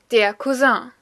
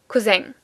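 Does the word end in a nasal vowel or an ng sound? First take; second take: nasal vowel; ng sound. First: The word ends in a French nasal vowel. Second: The word ends in a clear ng sound. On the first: "the French pronunciation is still considered the correct one" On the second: "making the uh into an eng"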